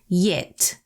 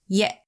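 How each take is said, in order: First: The final consonant is fully pronounced. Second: The word is cut off by a glottal stop. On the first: The speaker calls it wrong. "like we would say in English" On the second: The speaker calls it right. "interrupted before you get to properly pronounce the final consonant"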